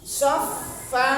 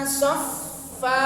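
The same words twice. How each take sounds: First: The consonant is a fricative with air released. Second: The consonant is a fricative with air released.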